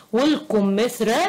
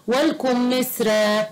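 First: والقمثرى with a back q where k belongs; wrong Q sound. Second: والكمثرى slowly with a front k; light K sound. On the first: Teacher pointing out a misspelling, heavy q in والقمثرى. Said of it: "بكاف". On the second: Teacher correcting the misspelling, light k in والكمثرى. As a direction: say والكمثرى with k, never q. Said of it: "بالكاف مش بالقاف". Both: Shown as a demonstration.

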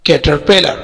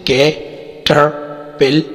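First: Said in the usual way. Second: "caterpillar" slowly as कै, टर, पिल, लर; split into syllables. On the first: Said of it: "चार syllable है". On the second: Shown as a demonstration. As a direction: pause after each of the four syllables of "caterpillar". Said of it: "चार syllable है जैसे". ("Caterpillar" کو چار حصوں میں ٹھہر ٹھہر کر)

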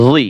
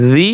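First: "জি" as a thick, emphatic Arabic zoa syllable; heavy zoa sound. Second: "জি" as a thin Arabic dhal syllable; light dhal sound. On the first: Teacher drills look-alike sounds, "জি" with emphatic zoa. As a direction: make "জি" heavy, back of tongue raised. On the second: Teacher drills look-alike sounds, "জি" with light dhal. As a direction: say "জি" lightly, like "thee". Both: Shown as a demonstration. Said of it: "একটা হরফের উচ্চারণ অন্য হরফের সাথে মিলে যায়".

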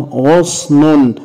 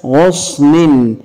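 First: غصن slowly as ghus-nun; damma tanween. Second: غصن as ghus-nin; kasra tanween. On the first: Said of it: "عند تنوينها بالضم". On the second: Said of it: "تنوينها بالكسر". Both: Shown as a demonstration.

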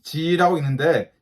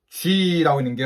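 First: G said as plain "jee"; G as Korean 지; alternative G pronunciation. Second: G said as "jwee"; G with a w-glide before the ee; preferred G pronunciation. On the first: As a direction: say G with an unrounded "ji" vowel. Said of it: "어떤 사람들은 G라고 있는데". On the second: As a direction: round the lips into G, like Korean 쥐. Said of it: "훨씬 더 나을 것 같아요". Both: Shown as a demonstration.

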